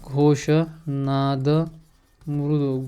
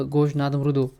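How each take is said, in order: First: घोष नाद drawn out word by word, very slow; slow dictation. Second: Said in the usual way. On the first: Shown as a demonstration. Teacher dictates घोष नाद slowly to students. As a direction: spell it out slowly for the class. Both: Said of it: "teacher repeats answer slowly".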